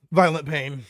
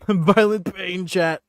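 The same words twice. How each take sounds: First: Said in the usual way. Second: Slow, louder through a laugh. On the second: Real, not acted. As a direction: laugh it out slowly.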